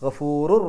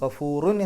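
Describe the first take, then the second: First: The word ends with an r merged into the next. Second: The word ends with a nasal n sound. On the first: The speaker calls it right. "തെൻവീനിനെ റായിലേക്ക് പൂർണ്ണമായിട്ടും ലയിപ്പിക്കുക" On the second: The speaker calls it wrong. "ഗഫൂറുൻ എന്ന് പറയില്ല"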